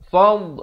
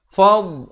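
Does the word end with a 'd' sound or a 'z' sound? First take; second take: d; d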